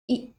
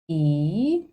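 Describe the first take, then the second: First: The vowel is short and quick. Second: The vowel is held longer. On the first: "This vowel is a short and quick sound" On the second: "E vowel is longer than E vowel sounds"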